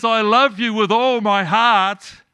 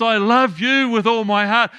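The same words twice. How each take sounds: First: Slow, loud, leaning on love; God voiced by a preacher, love stretched out and falling; stress on love. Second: Loud, leaning on love again; God voiced by a preacher, love stressed to show it is the same. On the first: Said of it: "God looks at Jesus and says". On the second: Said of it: "turns and looks at you and says".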